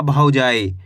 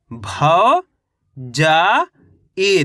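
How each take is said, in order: First: Said in the usual way. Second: "भौ, जा, ई" as separate, drawn-out syllables with pauses. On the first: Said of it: "शब्द का उच्चारण". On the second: Shown as a demonstration. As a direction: sound out भौ, जा, ई one at a time. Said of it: "एक अक्षर का उच्चारण". (अक्षर-अक्षर अलग करके "भौ, जा, ई")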